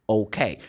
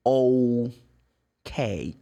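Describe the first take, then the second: First: Said in the usual way. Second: "Okay" split slowly into oh and kay; drawn-out demonstration. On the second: Shown as a demonstration. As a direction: stretch "Okay" with a gap before the K. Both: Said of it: "That's the sound".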